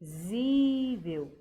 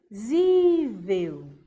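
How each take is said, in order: First: Visível said very slowly, leaning on SÍ; stressed on the penult. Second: Visível, stretched slowly with weight on vi-SÍ-vel; teacher drawing out visível to find the strong syllable; stressed on the penult. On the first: Teacher repeating the word for the class, slowly stressing SÍ. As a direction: repeat Visível slowly, hitting the second-to-last syllable. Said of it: "Deixa eu repetir". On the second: Teacher sounding out the word for pupils, slow and stressed. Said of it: "Visível me parece que tá com acento na penúltima". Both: Shown as a demonstration.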